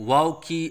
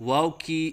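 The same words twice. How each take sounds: Both takes have the same delivery.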